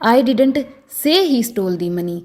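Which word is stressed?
say. The word 'say' carries the stress. It was conveyed some way other than saying it. "अगर मैं से पर जोर डालकर बोलूं"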